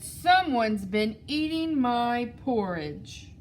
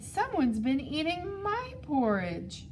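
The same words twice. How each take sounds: First: It is said in a big, deep voice. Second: It is said in a medium-sized voice. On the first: The biggest bear is speaking. "in his great huge voice said" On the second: The middle-sized bear is speaking. "in the medium-sized voice and said"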